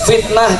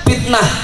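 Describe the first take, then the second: First: The word begins with an F sound. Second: The word begins with a P sound. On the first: The speaker calls it right. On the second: The speaker calls it wrong.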